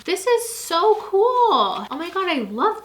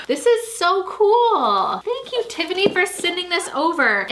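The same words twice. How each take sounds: First: High, drawn-out delighted cool; excited squeal. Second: Excited squeal. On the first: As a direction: stretch it out in delight. Reading the planner excitedly. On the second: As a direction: gush over the gift. Opening a fan gift excitedly. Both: Real, not acted.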